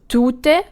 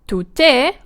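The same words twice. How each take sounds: First: The stress is on the first syllable. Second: The stress is on the second syllable. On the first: It means a person. "is stressed on the tu" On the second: It means a woman. "is stressed on the te"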